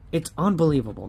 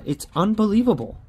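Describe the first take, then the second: First: Said in the usual way. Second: Much higher, louder cry of "unbelievable"; exasperated outburst at a losing ticket; disbelief. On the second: Real, not acted. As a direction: throw "It's unbelievable" up high in exasperation.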